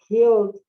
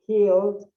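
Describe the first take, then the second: No difference in how they are said.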